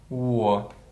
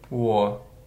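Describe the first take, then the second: No difference in how they are said.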